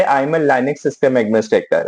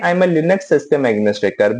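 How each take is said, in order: First: "Linux" said as LYE-nix, slow and clear; one pronunciation of "Linux"; first way of saying it. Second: "Linux" said as LIN-ux, short I; the other pronunciation of "Linux"; second way of saying it. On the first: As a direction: say "Linux" with a long I. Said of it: "I may say". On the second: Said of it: "both pronunciation I may use". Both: Shown as a demonstration.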